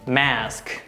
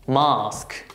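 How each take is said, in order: First: It is said with American pronunciation. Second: It is said with British pronunciation. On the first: "American pronunciation" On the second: "British pronunciation"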